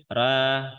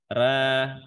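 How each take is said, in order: No difference in how they are said.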